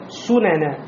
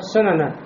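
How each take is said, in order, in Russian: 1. Первая гласная полная, губы округлые. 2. Первая гласная слабая, редуцированная. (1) "А надо сунена. Губы делают кольцом" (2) "Если сделать неполноценной, как будто будет три фатхи"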